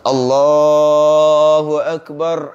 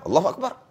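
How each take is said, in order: First: It is said slowly and clearly. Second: It is said quickly and unclearly.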